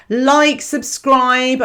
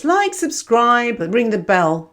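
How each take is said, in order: First: Said in the usual way. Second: Slow, stretched-out like, subscribe; mock-reluctant slow call to subscribe; drawn-out plug. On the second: Shown as a demonstration. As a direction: drag the words out like a reluctant plug. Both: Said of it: "I never do this".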